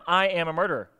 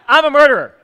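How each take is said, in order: First: It is said at normal, quieter volume. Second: It is said loudly and forcefully.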